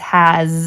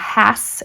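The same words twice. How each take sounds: First: The word ends with a z sound. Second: The word ends with an s sound. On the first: The speaker calls it right. "an S that sounds like a Z" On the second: The speaker calls it wrong. "that's not has"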